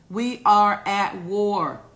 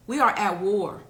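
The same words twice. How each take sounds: First: Louder and slow, every word weighted; slow emphatic declaration. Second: Said in the usual way. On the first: Shown as a demonstration. Repeating it to the viewers as a slow, louder emphatic declaration. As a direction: hammer it home to the viewers, slowly. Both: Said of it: "Do I need to get closer to the camera".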